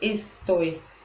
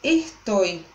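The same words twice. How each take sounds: First: The s is a clear hissing sound. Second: The s is breathed out like an h. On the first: This is the standard form, not the Argentine one. "e não estoy" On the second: This is how Argentine speakers say it. "los argentinos dicen estoy"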